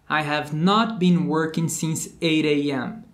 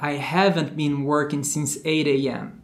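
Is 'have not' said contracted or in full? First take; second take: full; contracted. First: Have and not are said as two full words. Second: Have and not merge into one contracted word. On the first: This is the textbook school form. "mais um caso daqueles do inglês bonitinho da escola" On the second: This is how people say it in real life. "na vida real vão contrair o have com not"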